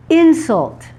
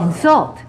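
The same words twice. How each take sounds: First: "Insult" stressed on the first syllable; "Insult" as a noun, front-stressed. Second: "Insult" stressed on the second syllable; "Insult" as a verb, end-stressed. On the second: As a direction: say "Insult" as in-SULT. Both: Shown as a demonstration. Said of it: "shift in the stressed syllable".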